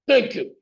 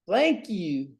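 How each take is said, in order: First: It is said in a barking drill sergeant voice. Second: It is said in a drawling cowboy voice. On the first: "Here's my drill sergeant" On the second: "Here's my cow person"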